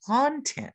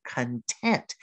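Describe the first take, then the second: First: "content" said CON-tent, first syllable stressed. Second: "content" said con-TENT, second syllable stressed. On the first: Teacher showing learners what not to say, "content" stressed on first syllable. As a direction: hit the first syllable of "content", with a full open o. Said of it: "Don't say content". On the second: Teacher has learners watch their mouths, "content" stressed on second syllable. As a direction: lean on the last syllable of "content". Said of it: "You emphasize the second syllable". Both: Shown as a demonstration.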